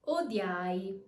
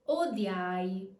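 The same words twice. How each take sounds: The two takes are said the same way.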